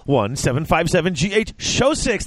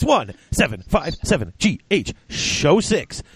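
First: Said in the usual way. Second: Slow, higher-pitched announcement of the number; slow repeat. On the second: Real, not acted. Host repeating the call-in number for listeners, slowly and deliberately. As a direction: spell the number out slowly for callers.

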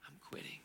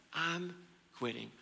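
First: Breathy whisper, almost gone; whispered quitting. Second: Said in the usual way. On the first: Acted. Elijah whispering his final I'm quitting. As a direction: let it fall to a whisper.

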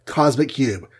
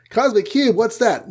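First: Said in the usual way. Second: High-pitched mock surprise; baffled question. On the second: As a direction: echo it back as a puzzled, squeaked-up question. Team's baffled reply.

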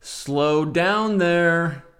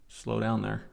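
First: Very slow, loud and higher; exaggerated drawn-out read; slow-motion drawl. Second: Said in the usual way. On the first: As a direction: stretch every word out hugely. Exaggerated repeat of the comment.

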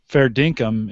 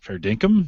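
First: Said in the usual way. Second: "Fair dinkum" with a rising end; questioning. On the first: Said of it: "You'd ask that as a question?". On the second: Shown as a demonstration. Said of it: "ask that as a question".

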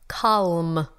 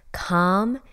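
First: "Calm" with a clear L, kahlm; "Calm" said carefully, the L sounded; clear pronunciation. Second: Said in the usual way. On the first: Shown as a demonstration. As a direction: spell out "Calm" slowly for non-Australians. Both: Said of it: "for my friends who cannot understand my Australian accent".

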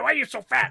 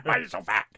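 First: High, loud, strained yell of the taunt; mock taunt. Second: Dropped low and growled, rising at the end; low mock taunt. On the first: Imitating the bully's taunt, shouted high. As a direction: shriek the question at him. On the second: Repeating the bully's taunt in a low growl. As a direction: growl the same taunt far down. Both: Repeated quote, two deliveries.

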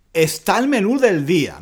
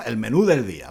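First: Reading the lyric. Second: Said in the usual way. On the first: Shown as a demonstration. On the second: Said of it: "¿no?".

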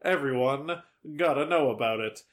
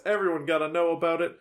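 First: Spaced out, pause after EVERYONE; measured repeat. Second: Fast, run-together line; quick delivery. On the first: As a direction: say EVERYONE, pause, then finish deliberately. Repeats the line slower for emphasis. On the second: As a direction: rattle it off quickly. Same line said quickly, then slowly. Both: Real, not acted.

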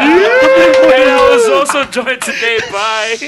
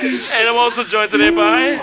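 First: High, loud, slow mock announcer; hammed-up show host. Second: Laughing through the line; giggling while announcing. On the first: Redoes the intro in a put-on voice. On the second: Real, not acted. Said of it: "just fucking say this shit".

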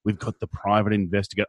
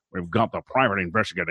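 First: Said in the usual way. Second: Quick, hammed-up noir narrator; booming old melodrama narrator. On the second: Shown as a demonstration. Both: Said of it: "I feel it should be".

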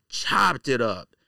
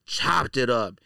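Both takes have the same delivery.

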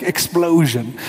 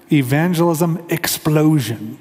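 First: "explosion" drawn out big; hammed-up announcer "explosion"; dramatic word. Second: Evangelism explosion, slow and punched out; dramatic name. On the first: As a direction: say "explosion" like a blast. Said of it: "You have to say it like explosion". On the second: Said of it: "you have to say it like that". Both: Shown as a demonstration.

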